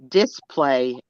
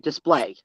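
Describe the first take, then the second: First: The stress falls on the Texan syllable. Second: The stress falls on the standard syllable. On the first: The speaker calls it wrong. "Texans say the word display" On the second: The speaker calls it right. "as opposed to display"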